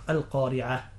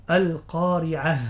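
First: "القارعة" ending in an open a; haa heard as alif. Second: Slow, loud "القارعة" with a breathed h at the end; emphatic demo, "القارعة" ending in a distinct h; clear final haa. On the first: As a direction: say "القارعة" quickly with no h at the end. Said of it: "يتوهم المستمع أنها ألف". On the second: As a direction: stretch "القارعة" and close on an audible haa. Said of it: "هكذا". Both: Shown as a demonstration.

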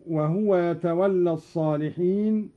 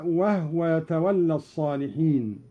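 First: Said in the usual way. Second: "وهو" as "wahwa" with a silent ha; Qalun reading. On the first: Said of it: "قوله تعالى". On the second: Shown as a demonstration. Teacher shows "وهو" with silent ha. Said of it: "بإسكان الهاء هكذا".

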